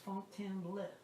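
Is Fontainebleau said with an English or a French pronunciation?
French. The name is said with a French pronunciation. The speaker calls it right. "It's Fontainebleau. You gotta know French"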